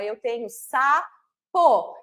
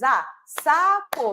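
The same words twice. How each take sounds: First: "sapo" drawn out slowly, sa-po, with a falling end; syllables clapped. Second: "sapo" said slowly in two syllables, sa-po; syllables clapped. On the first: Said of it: "eu tenho duas partes". ("sapo" bem pausado, marcando as sílabas) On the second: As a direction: stretch "sapo" out beat by beat as if clapping. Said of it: "bate palma". ("sapo" dito devagar, sílaba por sílaba) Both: Shown as a demonstration.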